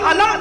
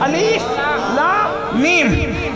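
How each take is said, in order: First: The letters are joined into one short word. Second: Each letter name is said separately. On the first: This is how the same letters are read in Surat al-Fil. "वहां पूरी उम्मत अलम पढ़ती है" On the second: This is how the same letters are read in Surat al-Baqara. "और यहां क्या पढ़ते हैं?"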